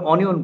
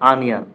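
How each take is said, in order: First: It begins with an 'o' sound. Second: It begins with an 'a' sound. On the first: The speaker calls it wrong. "আমরা অনিয়ন বলি" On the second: The speaker calls it right. "But সঠিক উচ্চারণ হচ্ছে আনিয়ন"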